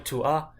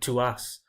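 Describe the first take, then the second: First: No S sound is heard at the end. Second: The final S sound is pronounced. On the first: The speaker calls it right. "I'm only really saying the A explicitly. You can't really hear an S" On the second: The speaker calls it wrong. "I wanted to pronounce the A and the S"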